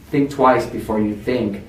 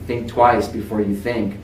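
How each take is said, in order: Both takes have the same delivery.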